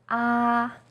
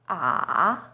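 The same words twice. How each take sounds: First: The pitch stays high and level. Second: The pitch dips low, then rises. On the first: "First tone, yi sheng, is high and steady" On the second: "Third tone, san sheng, is even lower. It first dips down, then rises"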